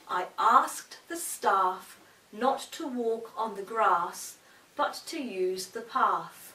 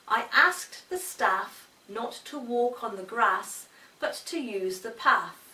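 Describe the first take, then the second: First: The vowel in grass and path is long. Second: The vowel in grass and path is short. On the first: "In more academic and professional circles should sound like this" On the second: "An example"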